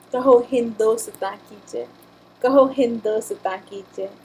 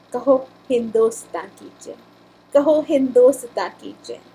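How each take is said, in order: No difference in how they are said.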